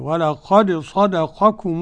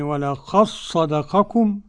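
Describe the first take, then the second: First: The d is released distinctly with an echoing bounce. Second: The d merges into one doubled s sound. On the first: "والبقون ولقد بالقلقلة كده" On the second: "ننطق بصاد واحدة مشددة"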